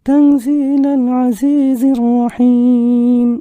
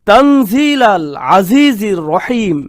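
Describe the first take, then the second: First: It is recited softly without strong emphasis. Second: It is recited forcefully and with strong emphasis. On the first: It is spoken in an ordinary, gentle way. The speaker calls it wrong. "নরম ভাবে এখানে বলা হচ্ছে না। আপনারা তো এভাবে পড়েন না" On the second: It is spoken with great authority. The speaker calls it right. "এত জোরালো ভাষায় উত্তরটি এসেছে"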